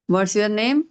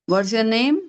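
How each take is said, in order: The two takes are said the same way.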